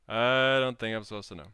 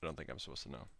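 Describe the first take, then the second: First: Louder repeat of the hushed line; second take, loud and full; loud declaration. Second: Much lower and softer muttered take; first take, low and hushed; quiet aside. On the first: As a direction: proclaim it to the chat. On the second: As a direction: say it under your breath. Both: Shown as a demonstration.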